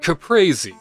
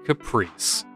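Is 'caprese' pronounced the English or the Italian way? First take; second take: Italian; English. First: It is said with an Italian pronunciation. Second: It is said with an English pronunciation.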